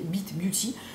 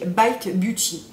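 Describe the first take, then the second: First: The name is pronounced with French sounds. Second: The name is pronounced with English sounds.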